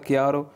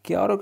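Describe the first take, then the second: First: Said in the usual way. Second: "chiaro" lifted high with a rising end; rising model word. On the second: Shown as a demonstration. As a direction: repeat "chiaro" upward, like prompting the class. ("chiaro" ऊँचे, उठते सुर में) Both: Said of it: "repeats word for learners".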